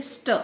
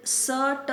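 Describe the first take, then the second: First: "स्ट" as one quick cluster; "स्ट" with no vowel between; read together, quickly. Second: "स, ट" as two isolated sounds; separate sounds. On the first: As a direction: run "स" straight into "ट": "स्ट". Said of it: "एक साथ पढ़ेंगे". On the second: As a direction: pause between "स" and "ट". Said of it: "नहीं पढ़ेंगे". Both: Shown as a demonstration.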